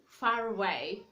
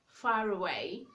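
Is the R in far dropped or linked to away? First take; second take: linked; linked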